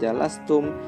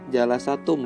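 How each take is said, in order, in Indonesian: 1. Huruf s langsung diikuti t. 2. Ada bunyi vokal setelah s. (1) "jadi sukun" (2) "bukan seperti itu"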